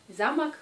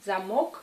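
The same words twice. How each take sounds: First: "Замок" as ZA-mak, falling after the first syllable; first-syllable stress. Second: "Замок" as za-MOK, rising to the end; second-syllable stress. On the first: Teacher naming the castle, "Замок" stressed on first syllable. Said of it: "le château". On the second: Teacher naming the lock, "Замок" stressed on final syllable. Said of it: "c'est la serrure". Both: Shown as a demonstration.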